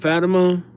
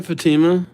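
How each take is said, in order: First: Fatima said "FAT-uh-muh"; Fatima with a short, unstressed middle syllable; second-guess pronunciation. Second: Fatima said "fuh-TEE-muh"; Fatima with a long "ee", stressed in the middle; first-guess pronunciation. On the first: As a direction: stress the first syllable of Fatima. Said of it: "I believe it's Fatima". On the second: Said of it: "Or, or is it Fatima?". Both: Real, not acted.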